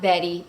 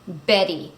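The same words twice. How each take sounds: First: The b is soft, with the lips loosely closed. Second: The b is firm, with both lips pressed. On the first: The speaker calls it wrong. "not Betty" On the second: The speaker calls it right. "make sure that you're saying a clear b"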